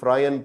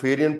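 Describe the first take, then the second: First: It starts with 'fr' followed by 'eye'. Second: It starts with 'feh' and has an extra syllable. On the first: "कोई फ्रायन पढ़ रहा है" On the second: "वो फेरियन पढ़ रहा है"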